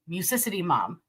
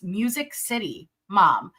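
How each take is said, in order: First: The two words are merged into one word. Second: The two words are said as separate words. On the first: The speaker calls it wrong. "because it was the back to back C, I just combined it to Musicity" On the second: The speaker calls it right. "just so you know, it's Music City Mom"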